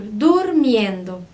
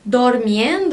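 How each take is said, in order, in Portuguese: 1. A primeira vogal tem som de u. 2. A primeira vogal tem som de o. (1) "eu digo dur, durmiendo" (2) "Ao invés de dizer dormiendo"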